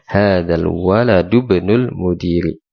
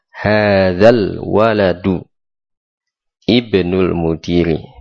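First: Waladu runs straight into ibnul without a break. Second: Waladu and ibnul are said apart, not linked. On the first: It follows the normal reading rule. "Jadi dalnya bersambung dengan ibnu" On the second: It highlights which word is the predicate. "maka tadi saya baca terpisah"

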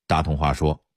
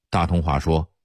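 Both takes have the same delivery.

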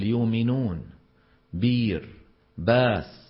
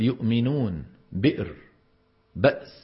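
First: Glottal stops are replaced by long vowels. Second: Glottal stops are clearly pronounced. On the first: "ومنهم من يبدل الهمزات" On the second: "منهم من يبين الهمزات"

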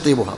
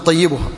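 First: The middle consonant is single, without shadda. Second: The middle consonant is doubled, with shadda. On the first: The speaker calls it wrong. "وليس طيبها" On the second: The speaker calls it right. "طيبها عندكم بالتشديد الجميع"

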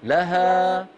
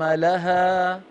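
First: The final long vowel fades out gradually. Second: The same.

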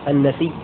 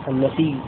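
The two takes are said the same way.

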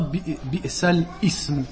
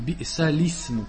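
First: A glottal break comes before the word ism. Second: The sounds link smoothly into ism without break. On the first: The speaker calls it wrong. "On ne dit pas bi'salism" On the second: The speaker calls it right. "on dit bi'salism"

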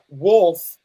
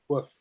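First: The word is said with a clear L sound. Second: The word is said without any L sound. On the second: "but it's pronounced like woof"

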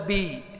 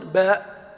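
First: The vowel is a pure i. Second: The vowel is a pure open a. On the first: "بي بالكسر الخالصة" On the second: "باء بالفتحة الخالصة"

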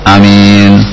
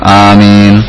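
First: The first vowel is short and the m single. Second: The first vowel is long and the m single. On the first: "Yang pertama qasrul alif, alifnya itu pendek" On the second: "Yang kedua madduha, seperti yang biasa kita kenal"

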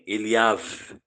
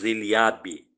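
First: The name ends with a V sound. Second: The name ends with a B sound. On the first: "é com o som de V, de vaso" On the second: "Em português nós falamos Eliabe, com som de B no final"

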